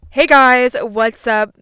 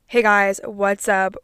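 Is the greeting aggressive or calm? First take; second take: aggressive; calm. First: The greeting sounds aggressive and forceful. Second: The greeting sounds calm and relaxed.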